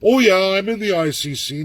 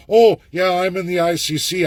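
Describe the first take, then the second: First: Mock boast again. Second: Mock a rival claiming ICC work; mock boast. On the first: Speaker dares rivals to claim ICC work, higher sarcastic voice. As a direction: parody the same empty claim. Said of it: "Ask someone to say". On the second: Speaker mocks rivals boasting about the ICC, higher sarcastic voice. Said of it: "Nobody else can tell you".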